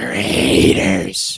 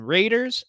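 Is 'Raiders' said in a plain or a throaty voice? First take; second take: throaty; plain. First: It is said in a deep, growling, throaty voice. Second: It is said in a plain, ordinary voice. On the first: The speaker calls it right. "with all of the throat in it" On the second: The speaker calls it wrong. "I said the Raiders wrong"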